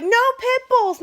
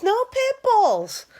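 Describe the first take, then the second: First: High, loud mock bark of a stubborn old man; sneering mimicry of a rule-quoting boss; mocking the father-in-law. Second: High, slow drawn-out mock repeat; dragged-out parody of his rule; mocking the father-in-law. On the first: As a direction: parody him, shrill and high. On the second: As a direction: stretch it out, still high and mocking. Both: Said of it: "He's like".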